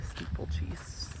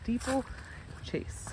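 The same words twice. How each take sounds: First: Steeplechase mumbled as stipltchis; slurred Steeplechase. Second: Steeplechase said slowly, syllable by syllable; careful Steeplechase. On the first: Real, not acted. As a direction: Steeplechase rushed and garbled. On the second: Shown as a demonstration. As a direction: Steeplechase drawn out and breathy. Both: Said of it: "if I could speak to that".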